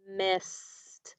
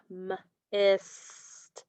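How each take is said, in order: First: Said in the usual way. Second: MIST split as mmm... isss-t; sounded out. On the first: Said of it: "Still one syllable". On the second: Shown as a demonstration. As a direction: stretch MIST, pausing after the m. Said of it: "What are your sounds".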